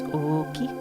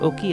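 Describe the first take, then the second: First: The first o vowel is held long. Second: The first o vowel is short. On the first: The speaker calls it right. "that's like long vowel" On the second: The speaker calls it wrong. "instead of"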